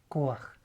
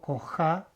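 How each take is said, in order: First: The a vowel precedes the final guttural consonant. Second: The a vowel follows the final guttural consonant. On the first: The speaker calls it right. "digo Koach" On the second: The speaker calls it wrong. "pero yo no digo Koja"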